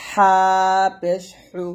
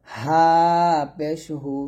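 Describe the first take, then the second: First: হা and হু squeezed fine in the throat; narrow, pressed ha. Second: Light হা and হু, no pressure; thin ha. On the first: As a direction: press finely on each হা, হু. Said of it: "চিকুন করে চাপ দিয়ে বলতে হবে". (হা চিকুন চাপ দিয়ে) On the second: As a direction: keep the throat open on হা. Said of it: "হা পাতলা করে". (হা পাতলা করে) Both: Shown as a demonstration.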